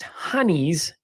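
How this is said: The first vowel sounds like 'uh'.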